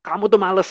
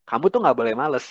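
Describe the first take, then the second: First: Higher, louder accusing jab; scolding curse. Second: Kamu tuh nggak boleh males said evenly as counsel; counsel, don't accuse; steady advising tone; gentle advice. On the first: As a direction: snap the insult at the child. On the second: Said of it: "Beda dong". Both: Shown as a demonstration.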